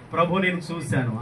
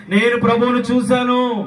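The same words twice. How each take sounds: First: Said in the usual way. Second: High, ringing shout of testimony; loud proclamation. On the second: Acted. Preacher showing believers how to testify, loud proclamation.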